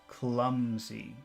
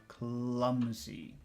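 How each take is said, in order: Both takes have the same delivery.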